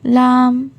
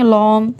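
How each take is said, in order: First: The sound is light, with an open vowel. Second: The sound is heavy, with a rounded vowel. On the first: The speaker calls it right. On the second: The speaker calls it wrong.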